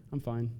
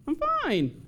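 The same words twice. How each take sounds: First: Clipped, softer sulky "I'm fine". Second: "I'm fine" squeaked much higher in a put-on voice; mock high fine. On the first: Retold or imitated. Sulker lying that she is fine, sulky and soft. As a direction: say "I'm fine" quietly, clearly not fine. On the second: Sulker faking cheer with a squeaky "I'm fine". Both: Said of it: "we know you're lying when you say it".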